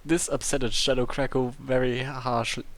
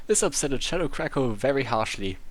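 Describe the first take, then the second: No difference in how they are said.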